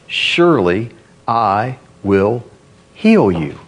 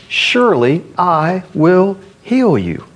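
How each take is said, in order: First: Slow, low, deliberate pronouncement; solemn promise. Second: Slow, raised, ringing assurance; emphatic promise. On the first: Preacher voices God's promise to Hezekiah, solemn and low. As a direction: space out the promise, dropping low at the end. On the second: Preacher repeats God's promise to the congregation, emphatic and raised. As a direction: proclaim it slowly on a higher pitch. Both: Acted.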